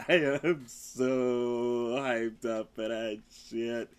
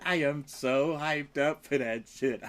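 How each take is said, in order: First: Low, very slow, stretching SO; slow emphatic repeat. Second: Said in the usual way. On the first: Real, not acted. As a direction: drag out "so hyped up" for emphasis.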